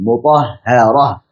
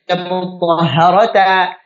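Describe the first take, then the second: First: The word ends on a breathy h sound. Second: The word ends with a 'ta' syllable. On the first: The speaker calls it right. "dibaca sebagai huruf ha sukun" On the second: The speaker calls it wrong. "bukan dibaca mutahharata"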